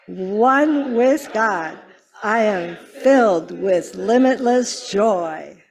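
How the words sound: It is said with strong, heartfelt conviction.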